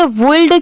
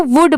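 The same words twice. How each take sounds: First: वुल्ड with the l pronounced, 'woold'; sounded l. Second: वुड with no l at all, like 'wood'; silent l. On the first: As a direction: mistakenly voice the l in वुल्ड. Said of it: "एल लगा है तो इसे वुल्ड". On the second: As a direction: drop the l and say वुड. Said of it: "यहाँ पर एल letter silent है". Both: Shown as a demonstration.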